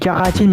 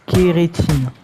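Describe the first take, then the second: First: The first vowel is an open 'a' sound. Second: The first vowel is a closed 'é' sound. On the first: This is the speaker's habitual way of saying it. The speaker calls it wrong. "Moi je dis caratine" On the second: This is the standard way of saying it. The speaker calls it right. "mais c'est kérétine"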